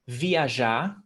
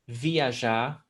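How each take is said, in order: The two takes are said the same way.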